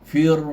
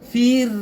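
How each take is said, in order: First: The r sound is heavy and thick. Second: The r sound is light and thin. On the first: "itulah tebal bagi huruf ra yang baris bawah tapi dibaca tebal" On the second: "jadi nipis"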